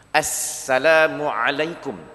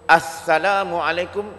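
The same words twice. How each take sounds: First: The s sound is said as a plain s. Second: The s sound is said as a lisped th. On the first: The speaker calls it right. "Sepatutnya huruf sin dia guna as" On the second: The speaker calls it wrong. "di akhir Assalamualaikum dia guna huruf sa"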